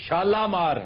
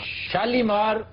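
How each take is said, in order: First: The middle vowel is an 'a' sound. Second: The middle vowel is a long 'ee' sound. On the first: The speaker calls it right. "ये शालामार है" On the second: The speaker calls it wrong. "गलत है"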